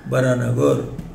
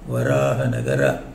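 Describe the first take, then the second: First: The name is said in a shortened form. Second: The name is said in its full form. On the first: This is the everyday spoken form of the name. "in colloquially they say Bharanagar" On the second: This is the proper form of the name. "It should be pronounced like that"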